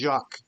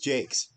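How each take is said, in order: First: The name is pronounced the French way. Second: The name is pronounced the English way. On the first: The speaker calls it wrong. "usually that's French, so usually it's Jacques" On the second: The speaker calls it right. "but it's Jake's"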